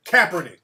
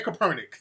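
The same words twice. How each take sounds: First: Kaepernick as "CAP-er-nick"; corrected emphasis. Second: Kaepernick as "kuh-PER-nick"; wrong emphasis. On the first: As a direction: stress the first syllable of Kaepernick. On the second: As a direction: stress the second syllable of Kaepernick. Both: Shown as a demonstration. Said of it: "putting the emphasis on the wrong shit".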